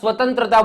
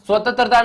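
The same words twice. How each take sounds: First: The second syllable is heavy, with the nasal. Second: The second syllable is light, without the nasal. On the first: The speaker calls it right. "સ્વતંત્રતા બોલીએ છીએ તો ટપકાનો ભાર સહન થાય છે" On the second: The speaker calls it wrong. "સ્વતંત્રતા નથી બોલતા"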